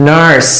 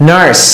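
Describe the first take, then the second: Both takes have the same delivery.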